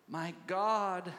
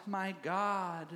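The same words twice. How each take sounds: The two takes are said the same way.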